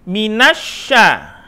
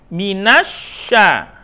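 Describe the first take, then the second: Both takes have the same delivery.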